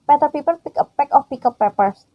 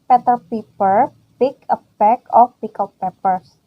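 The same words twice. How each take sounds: First: It is said very fast. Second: It is said at a normal speed.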